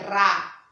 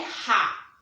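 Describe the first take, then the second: First: The r is a quick tongue tap. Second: The r is a strong throaty sound. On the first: The speaker calls it right. "A língua, ela vai para o céu da boca" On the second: The speaker calls it wrong. "não é ra"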